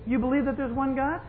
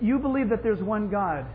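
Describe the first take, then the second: First: It is said in a dismissive, sarcastic tone. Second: It is read in a plain, neutral tone. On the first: The point is obvious and hardly worth saying. "they would read it this way" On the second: The statement is simply read as written. "It says"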